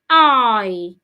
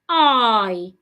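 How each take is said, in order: First: The vowel glides slowly from one sound to another. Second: The same.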